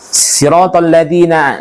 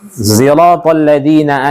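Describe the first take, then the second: First: The first word begins with an emphatic s sound. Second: The first word begins with a z sound.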